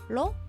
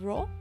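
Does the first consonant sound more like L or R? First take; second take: L; R. First: The consonant sounds like an English L. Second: The consonant sounds like an English R. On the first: The speaker calls it right. "how I'm saying lo" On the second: The speaker calls it wrong. "instead of ro"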